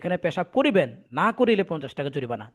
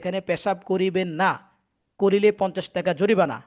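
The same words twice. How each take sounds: First: The pause comes right before 'na'. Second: The pause comes right after 'na'. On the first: Urinating here is required, or else there is a fine. The speaker calls it wrong. "লোকটা এভাবে পড়ছে ... দাড়ি কমা খেয়াল করেনি" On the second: Urinating here is forbidden and carries a fine. The speaker calls it right. "দেওয়ালে লেখা ছিল"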